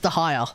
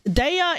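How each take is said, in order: First: The name has an h sound in the middle. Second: The name has no h sound in the middle. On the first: "According to my Pakistani friend, it's the higher" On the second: "Daya is one way of pronouncing it"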